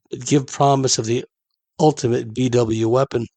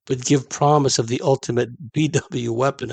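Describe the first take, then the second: First: Said in the usual way. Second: Reading through a slight laugh; laughter creeping into the reading; suppressed laughter. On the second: Real, not acted. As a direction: try to read on while amused. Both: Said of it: "I don't know why I'm laughing".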